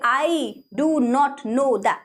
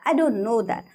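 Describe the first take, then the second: First: Do not is said as two full words. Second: Do not is contracted into one syllable. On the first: The speaker calls it wrong. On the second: The speaker calls it right.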